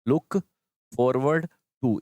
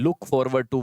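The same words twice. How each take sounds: First: Look, pause, then forward to dragged out; very slow broken drill. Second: Slow teaching stress. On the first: Teacher slowly drilling pupils on the phrase. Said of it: "इनमें भी to क्या है?". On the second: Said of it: "सबसे important तो ये भाई". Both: Shown as a demonstration.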